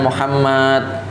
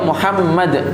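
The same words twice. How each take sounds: First: A vowel in the name is drawn out long. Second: The vowels in the name are all short. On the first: The speaker calls it wrong. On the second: The speaker calls it right. "ini nama beliau"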